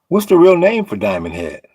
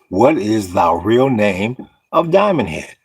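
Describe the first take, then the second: First: It is said at a normal, quicker pace. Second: It is said slowly and deliberately.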